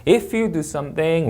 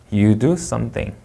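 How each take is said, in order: First: Slow, SOMETHING swept upward; unfinished clause, SOMETHING going up; rising intonation. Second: Very slow, SOMETHING settling downward; finished sentence, SOMETHING falling; falling intonation. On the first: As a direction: lift SOMETHING as if more follows. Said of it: "올려 읽고". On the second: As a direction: let SOMETHING fall to end it. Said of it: "끝나면 내려 읽는 겁니다". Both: Shown as a demonstration.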